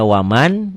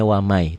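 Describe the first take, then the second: First: "waman" ending on a clear N; written form WAMAN. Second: "wamai" with a Y glide replacing the N; recited form WAMAI. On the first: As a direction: say "waman" exactly as spelled. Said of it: "Ditulisnya waman". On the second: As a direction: say "wamai", dropping the N. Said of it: "dibacanya wamai". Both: Shown as a demonstration.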